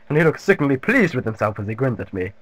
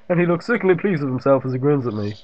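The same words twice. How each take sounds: First: It is read in a posh English gentleman accent. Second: It is read in the speaker's ordinary voice. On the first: The speaker calls it right. "I do like classic English gentleman" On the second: The speaker calls it wrong. "I forgot to do Mister Mackey's voice"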